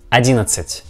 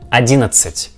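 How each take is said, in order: Both takes have the same delivery.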